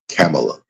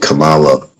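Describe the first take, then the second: First: The name sounds close to Pamela. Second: The name does not sound like Pamela.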